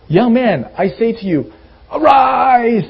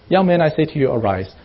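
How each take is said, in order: First: The command is said grandly, with dramatic force. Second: The command is said plainly, without drama.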